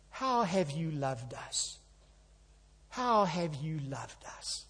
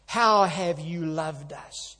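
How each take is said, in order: First: Soft, slow, doubting question; sad reply. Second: Slow, mildly sneering question; sneering sarcasm. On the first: Preacher voicing Israel's weary answer to God, sad. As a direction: let the doubt sag wearily. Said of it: "What a sad reply". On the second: Preacher mimicking the people's sarcastic reply to God, sneering. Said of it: "hear the sneer and the sarcasm". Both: Retold or imitated.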